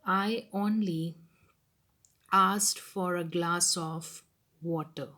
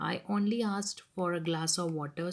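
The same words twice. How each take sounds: First: Slow, weighty "I only asked"; teacher stressing "only". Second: Said in the usual way. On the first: Shown as a demonstration. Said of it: "putting stress on". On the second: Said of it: "reads it again quickly".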